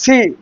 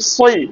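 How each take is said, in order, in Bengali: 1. s ধ্বনিটি হালকা ও সাধারণ। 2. s ধ্বনিটি ভারী ও মোটা। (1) "যদি বলি সি, তাহলে এটা কিসের উচ্চারণ? ... সিন" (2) "আর যদি বলি সই ... সদের উচ্চারণ"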